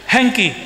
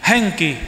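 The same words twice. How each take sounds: First: Hengki said high and loud, falling; trying out the Madurese Hengki; Madurese yes. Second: Hengki repeated, a falling retry; Madurese yes, again. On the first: To the mothers, trying Madurese yes, a high falling attempt. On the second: To the mothers, repeating the Madurese yes, a falling retry. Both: Shown as a demonstration. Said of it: "ini Madura bilang iya apa?".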